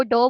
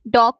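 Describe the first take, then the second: First: डो with the final G of dog dropped; final consonant deletion. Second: Said in the usual way. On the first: Retold or imitated. Lecturer shows a child deleting endings, डो without final G. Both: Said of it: "डॉग को डो बोल रहा है".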